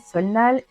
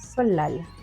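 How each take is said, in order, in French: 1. La consonne du milieu sonne comme un n. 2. La consonne du milieu sonne comme un l. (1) "ce n'est pas du tout ça" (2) "ça se prononce solal"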